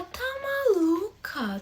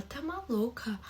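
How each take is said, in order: First: Incredulous. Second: Shocked disbelief. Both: Retold or imitated.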